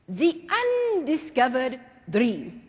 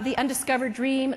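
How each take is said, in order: First: It is said with confident presence. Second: It is said timidly, without presence.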